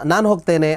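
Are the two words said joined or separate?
joined. The two words run together without a break. The speaker calls it right. "ಒಟ್ಟಿಗೆ ಹೇಳ್ತೀವಿ"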